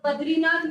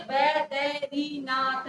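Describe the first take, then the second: First: "बद्रीनाथ" with d and r joined, louder; the rejected form "बद्रीनाथ", said as one word; run-together cluster. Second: "बैदरीनाथ" very slowly, syllable by syllable; slow teaching breakdown of "बैदरीनाथ"; separated syllables. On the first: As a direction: say "बद्रीनाथ" loudly with a joined द्री. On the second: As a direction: spell out "बैदरीनाथ" in drawn-out syllables, द apart from री. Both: Shown as a demonstration. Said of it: "बद्रीनाथ यूं नहीं है".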